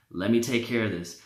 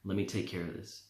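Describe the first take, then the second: First: Said in the usual way. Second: Low, much softer tempting murmur; demon whisper. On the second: Retold or imitated. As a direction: breathe it into his ear like a demon. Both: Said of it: "the demon's whispering in his ear".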